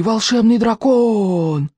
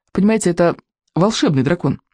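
First: High, very slow sigh of wonder; superstitious crowd marvelling; awed chorus. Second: Said in the usual way. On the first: A narrator's reading. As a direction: stretch every vowel in amazement. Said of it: "хором выдохнули они".

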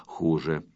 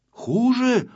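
First: Low, soft "хуже", stated with finality; grave verdict. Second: High, startled "Хуже?"; alarmed question. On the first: Acted. Friend delivers the bad news "хуже", grave and low. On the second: A narrator's reading. Pyostrenky hears bad news and asks "Хуже?", frightened. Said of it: "испугался Пёстренький".

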